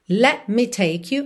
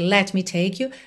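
First: It has small breaks, British style. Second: It is said smoothly, without breaks.

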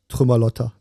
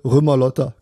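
First: The word begins with a t sound. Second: The word begins without a t sound.

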